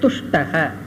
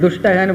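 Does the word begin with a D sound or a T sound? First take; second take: T sound; D sound. First: The word begins with a voiceless T sound. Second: The word begins with a voiced D sound. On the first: It means one who is satisfied. The speaker calls it right. "மோசமானவர் அல்ல, துஷ்டக" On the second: It means a wicked person. The speaker calls it wrong. "கொஞ்ச நாளுக்கு அப்புறம் துஷ்டகன்னு படிச்சிருவோம்"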